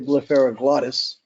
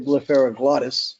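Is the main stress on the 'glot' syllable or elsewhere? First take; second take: glot; glot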